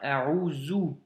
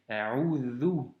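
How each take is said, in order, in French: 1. La consonne du milieu est un son z. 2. La consonne du milieu est un son th, comme dans 'this'. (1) "ou un Zei" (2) "c'est un Del et donc c'est A'udhu"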